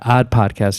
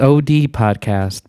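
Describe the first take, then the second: First: The name is said as one single word. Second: The name is spelled out as two letters. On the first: The speaker calls it right. "It's Odd, Odd Podcast. You don't say the O and the D" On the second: The speaker calls it wrong. "but not O D"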